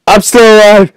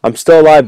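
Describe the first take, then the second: First: High, loud survival cry; excited shout. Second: Said in the usual way. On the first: Real, not acted. Gamer surviving glass break, excited shout. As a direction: yell it in high-pitched triumph.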